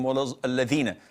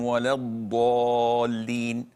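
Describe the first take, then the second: First: The ḍād is replaced by a clearly different letter. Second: The ḍād is pronounced in its standard form. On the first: The speaker calls it wrong. "this is totally unacceptable" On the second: The speaker calls it right. "the appropriate way is to say"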